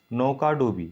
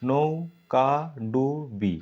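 First: Said in the usual way. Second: নৌকাডুবি drawn out very slowly, syllable by syllable; slow syllable split. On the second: Shown as a demonstration. Teacher slowly sounding out নৌকাডুবি. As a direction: stretch নৌকাডুবি to show each part. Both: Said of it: "তোমরা উচ্চারণ করলে".

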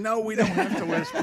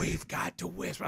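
First: Said in the usual way. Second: Hushed, softer quote of a grandkid; retold child's whisper. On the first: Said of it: "I said". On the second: Grandfather quoting whispering grandson, hushed. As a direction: imitate a child keeping hushed. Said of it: "so he starts whispering".

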